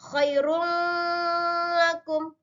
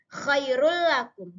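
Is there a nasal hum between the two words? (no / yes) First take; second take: yes; no. First: A nasal hum is held between the words. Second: The words merge directly with no nasal hum. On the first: The speaker calls it wrong. "Tidak boleh khairul lakum. Salah" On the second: The speaker calls it right. "tidak boleh ada dengung di antara tanwin dengan huruf lam"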